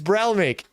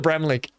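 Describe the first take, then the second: First: The l sound comes before the m sound. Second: The m sound comes before the l sound. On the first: The speaker calls it right. "It's Bralmick" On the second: The speaker calls it wrong. "I keep saying Bramlick"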